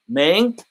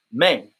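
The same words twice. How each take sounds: First: "Mang" with a rising tune; first take of Mang. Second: "Mang" low with a falling tune; second take of Mang. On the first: Contrasting two spellings of the band name, rising. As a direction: lift the end of "Mang" like a question. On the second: Contrasting two spellings of the band name, low and falling. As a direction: drop "Mang" down firmly at the end. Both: Shown as a demonstration. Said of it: "Hear the difference?".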